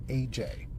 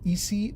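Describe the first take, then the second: First: The name sounds like the letters A and J. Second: The name sounds like the letters E and C. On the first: The speaker calls it right. "She tells me that you pronounce it A J" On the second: The speaker calls it wrong. "which sounds to me like E C"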